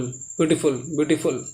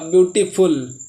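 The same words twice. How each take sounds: First: ब्यूटीफुल run together quickly as one word; quick, casual ब्यूटीफुल, less emphatic. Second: ब्यूटीफुल in two separate parts, ब्यूटी then फुल; ब्यूटीफुल sounded out in pieces, deliberately; split syllables. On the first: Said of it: "ऐसे जल्दी से बोलोगे". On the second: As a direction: break ब्यूटीफुल apart before फुल. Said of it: "ब्यूटी आप अलग बोलोगे". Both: Shown as a demonstration.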